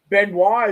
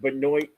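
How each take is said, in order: First: The name is said with a French pronunciation. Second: The name is said with an American pronunciation. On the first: "Benoit is the French pronunciation" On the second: "Benoit is the American pronunciation"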